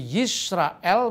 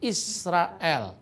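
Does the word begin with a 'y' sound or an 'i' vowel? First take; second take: y sound; i vowel. First: The word begins with a 'y' consonant sound. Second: The word begins with a plain 'i' vowel. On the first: This is the form that keeps the Hebrew yod. "huruf yod atau y" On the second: This is the East Syrian dialect form. "di Syria Timur dipakai dialek Shema Israel, bukan Yisrael"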